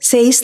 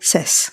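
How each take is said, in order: First: The vowel sounds like the one in 'say'. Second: The vowel sounds like the one in 'set'. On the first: The speaker calls it wrong. "സേസ് എന്ന് പറയില്ല" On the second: The speaker calls it right.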